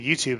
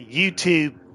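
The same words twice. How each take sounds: First: The 'ooh' vowel is said plainly, without emphasis. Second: The 'ooh' vowel is drawn out and emphasized. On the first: "I guess we say YouTube" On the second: "We don't we don't emphasize the ooh"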